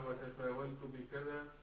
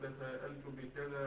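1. يحلّ صوت w محل الهمزة. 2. تُنطق الهمزة في الوسط. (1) "والقلب" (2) "على التحقيق"

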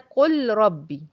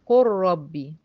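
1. تُنطق اللام منفصلة قبل الراء. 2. تُدغم اللام تماماً في راء مشددة. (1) "شايفة فيه ثقل كده" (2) "للتسهيل هنا حصل ادغام"

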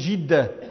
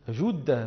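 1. الحركة الأولى صوت 'i' أمامي. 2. الحركة الأولى صوت 'u' مستدير. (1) "فيكسرونها" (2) "بضم الجيم"

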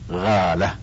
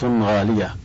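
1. الكلمة تُنطق مختصرة. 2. الكلمة تُنطق كاملة. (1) "والعامة تقول غالة" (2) "وتقول هذه سلعة غالية"

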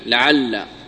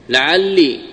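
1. ينتهي الحرف الأخير بفتحة. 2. ينتهي الحرف الأخير بكسرة. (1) "وفتحها" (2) "مع كسر اللام"

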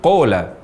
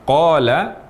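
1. Vokal pertama adalah bunyi o bulat. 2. Vokal pertama adalah bunyi a terbuka. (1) "bibir membulat. Sehingga suara menjadi berbunyi o" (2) "Yang seharusnya terucap qala"

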